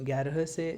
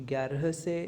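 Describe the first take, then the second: Both takes have the same delivery.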